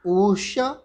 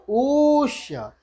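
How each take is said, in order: First: ऊष्य with a short u of one matra. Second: ऊष्य with the u drawn out very long over three matras, slow and higher; prolonged u. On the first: Teacher showing the short one-matra u in class. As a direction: say ऊष्य with a quick u. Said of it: "एक मात्रा". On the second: Teacher showing the pluta, the three-matra u. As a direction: hold the u in ऊष्य as long as three short ones. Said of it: "तीन मात्रा के बराबर". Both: Shown as a demonstration.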